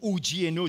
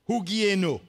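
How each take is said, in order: First: The word is pronounced with French sounds. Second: The word is pronounced with Greek sounds. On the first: "si on prononce ça à la française" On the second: "C'est un mot grec"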